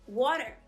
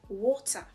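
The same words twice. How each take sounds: First: It is said in an American accent. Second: It is said in a heavy British accent. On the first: "no sotaque americano essa mesma palavra seria water" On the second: "mas o sotaque britânico, pesado, esse som é uh"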